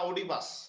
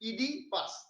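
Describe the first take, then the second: First: The name begins with an 'oh' sound. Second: The name begins with an 'ee' sound. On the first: The speaker calls it wrong. "অনেকে ভুল করে উচ্চারণ করেন" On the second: The speaker calls it right. "এটা হচ্ছে ইডিপাস, এই ও এর উচ্চারণটা উজ্জ্ব থাকবে।"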